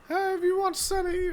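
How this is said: It is said in a put-on character voice.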